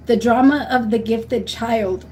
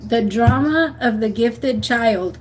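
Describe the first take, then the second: First: Slow, deliberate book title; slow, emphatic recommendation; slow title read. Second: Even slower, weighted title; slow, stressed title repeat. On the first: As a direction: spell out the title slowly so it sticks. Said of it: "Read the book". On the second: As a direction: repeat it slowly so they remember. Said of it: "I promise you that book". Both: Shown as a demonstration.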